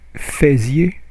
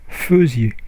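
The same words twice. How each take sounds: First: The first syllable sounds like 'fay'. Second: The first syllable sounds like 'feu'. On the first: The speaker calls it wrong. "you don't pronounce faisiez" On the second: The speaker calls it right. "you pronounce faisiez"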